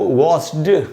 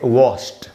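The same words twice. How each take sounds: First: The ending sounds like d. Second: The ending sounds like t. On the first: The speaker calls it wrong. "इसको हमको वॉश्ड नहीं पढ़ना है" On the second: The speaker calls it right. "एंड में डी को ट पढ़ेंगे"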